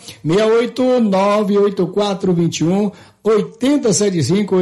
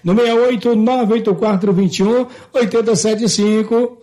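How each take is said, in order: First: The number is said slowly. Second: The number is said at normal speed.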